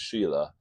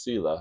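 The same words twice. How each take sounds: First: Shila begun with a sh sound; SH pronunciation. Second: Sila begun with a plain s sound; S pronunciation. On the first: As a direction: say Shila with sh as in "she". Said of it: "I think it's Shila". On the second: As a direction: say Sila with s as in "see", not sh. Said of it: "sometimes pronounced Sila". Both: Shown as a demonstration.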